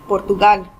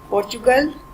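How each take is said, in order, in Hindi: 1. यह स्पेनिश उच्चारण से बोला जाता है। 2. यह अंग्रेज़ी उच्चारण से बोला जाता है।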